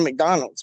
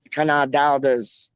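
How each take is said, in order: First: Said in the usual way. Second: Cadonaldas with drawn-out ah vowels; posh mispronunciation. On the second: Shown as a demonstration. Friend queries the trip, Cadonaldas said the posh way. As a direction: stretch McDonald's into Cadonaldas. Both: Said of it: "you didn't say McDonald's".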